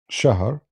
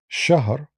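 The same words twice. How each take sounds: First: The word begins with a sh sound. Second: The word begins with a sh sound.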